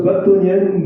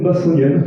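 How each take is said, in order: First: Bâtonnienne with a T sound in the middle; drawn-out try at bâtonnienne, said with T; unsure pronunciation. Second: Bassonienne with an S sound in the middle; second try, bassonienne with S instead of T; alternative pronunciation. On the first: Presenter unsure of a word tries it, bâtonnienne with a T. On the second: Presenter unsure of a word tries bassonienne with an S. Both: Shown as a demonstration. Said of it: "je ne sais pas comment on prononce ça".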